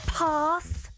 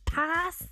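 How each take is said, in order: First: It has a long southern English 'ah' vowel. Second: It has a short Scottish 'a' vowel. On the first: "it's pass" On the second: "not pass"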